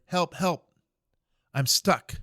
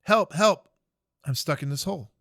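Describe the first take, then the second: First: Calling up out of a hole, somewhat louder; mock yell for help from the bottom of a hole; a private stuck in a hole calls up for help, in a mild mock yell; retold cry for help. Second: Louder cry for help. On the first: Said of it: "he starts screaming up there". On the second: Retold or imitated. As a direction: shout up from the hole, more desperate now. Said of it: "He starts screaming up again".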